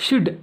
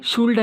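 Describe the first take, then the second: First: "షుడ్" with a silent L; short "షుడ్" said on its own, no L; correct pronunciation. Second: "షుల్డ్" with the L sounded; "షుల్డ్" with an audible L before D; mispronunciation demo. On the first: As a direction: drop the L in "షుడ్". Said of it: "షుడ్ అని పలకాలన్నమాట". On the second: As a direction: wrongly voice the L in "షుల్డ్". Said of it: "పలకకూడదు అనమాట". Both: Shown as a demonstration.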